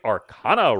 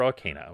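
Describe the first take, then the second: First: Arcana said ar-KAH-nuh; broad "ah" in Arcana's stressed syllable. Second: Arcana said ar-KAY-nuh; long "ay" in Arcana's stressed syllable. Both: Shown as a demonstration. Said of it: "whichever one you prefer".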